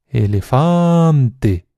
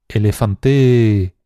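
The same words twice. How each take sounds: First: The stress is on the third syllable. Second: The stress is on the fourth syllable. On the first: "Cualquier nativo te dirá que la tercera opción" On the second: "alargando mucho cada una de las sílabas"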